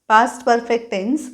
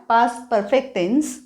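No difference in how they are said.

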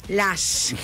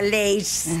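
First: The vowel is a plain open 'ah' sound. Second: The vowel is a gliding 'ay' sound. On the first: "Lash, claro" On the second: "pero se pronuncia Leish"

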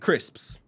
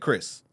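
First: The word ends with the full -sps sound. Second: The word ends without the -ps sound. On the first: "that's me saying it properly" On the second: "If I was saying it like how I normally say it"

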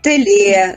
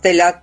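First: The final vowel is an 'e' sound. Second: The final vowel is an 'a' sound. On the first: This is the local dialect form. "«телє» замість «теля»" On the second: This is the standard literary form. "замість «теля»"

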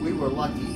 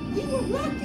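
First: It is said in his normal voice. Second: It is said in a squeaky little kid voice.

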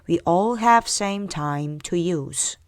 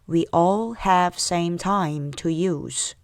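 First: The sentence is said faster still. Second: The sentence is said somewhat faster. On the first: "좀 더 빨리요" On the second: "조금 더 빨리 갈게요"

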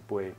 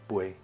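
Both takes have the same delivery.

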